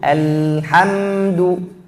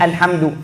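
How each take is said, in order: First: The word is said unhurriedly, sounds drawn out. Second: The word is said hurriedly. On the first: The speaker calls it right. "Lam dan mim suaranya harus jalan" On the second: The speaker calls it wrong. "Bukan alhamdu, jangan buru-buru"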